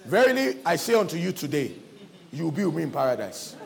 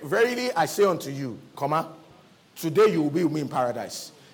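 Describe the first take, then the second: First: The pause comes after the word 'today'. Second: The pause comes before the word 'today'.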